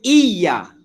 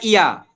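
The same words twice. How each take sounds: First: The y sound is doubled and held. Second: The y sound is single and short. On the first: The speaker calls it right. "Kita kena baca iya" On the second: The speaker calls it wrong. "Bukan iya"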